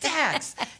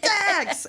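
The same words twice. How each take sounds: First: The name is said quietly. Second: The name is said loudly.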